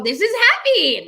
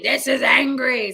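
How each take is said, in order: First: High, loud overdone happiness; bad-actor happy. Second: Slow, hammed-up anger; bad-actor angry. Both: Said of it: "they just go".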